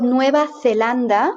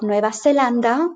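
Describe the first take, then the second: First: Zelanda with TH for Z; Spain's TH. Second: Zelanda with S for Z; Latin American S. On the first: Teacher showing Spain's TH in Nueva Zelanda. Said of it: "And in Latin America". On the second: Teacher showing Latin American S in Nueva Zelanda. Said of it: "in Latin America, you would have". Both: Shown as a demonstration.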